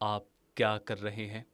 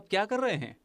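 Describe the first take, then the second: First: It is said flatly, with little expression. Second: It is said lively, with expressive energy. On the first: The speaker calls it wrong. "लेकिन क्या ये सही तरीका है?" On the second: The speaker calls it right. "Like this is voice acting."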